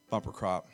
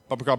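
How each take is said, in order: First: It is said at a normal pace. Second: It is said fast, repeated quickly.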